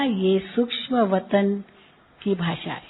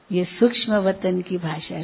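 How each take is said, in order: First: Gentle, loving reply. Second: Said in the usual way. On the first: Retold or imitated. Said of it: "बाबा ने बहुत प्यार से जवाब दिया".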